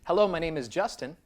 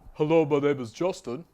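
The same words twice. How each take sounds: First: It is spoken in a plain, neutral voice. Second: It is spoken in a dark, muddy voice.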